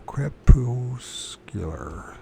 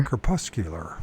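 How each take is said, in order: First: Crepuscular sounded out very slowly as "crep-YOOS-kyuh-ler"; halting mispronunciation. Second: Crepuscular as "kruh-PUS-kyuh-ler", stress on PUS; corrected pronunciation. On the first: Real, not acted. Reader stumbling over an unknown word, crepuscular haltingly as "crep-YOOS-kyuh-ler". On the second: Shown as a demonstration. Reader copying a pronunciation clip, crepuscular lower as "kruh-PUS-kyuh-ler". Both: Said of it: "at least I'm trying".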